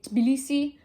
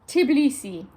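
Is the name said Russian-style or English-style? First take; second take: Russian-style; English-style. First: T and B are joined with no vowel. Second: A vowel is added between T and B.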